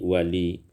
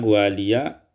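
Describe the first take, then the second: First: The word ends on a plain i. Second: The word ends with a voweled ya.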